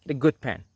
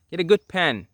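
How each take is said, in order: First: Said in the usual way. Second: "good pen" pushed higher and louder; emphatic repeat. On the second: Shown as a demonstration. Teacher stressing "Get a good pen" to viewers, higher and louder. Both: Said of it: "I gotta emphasize that again".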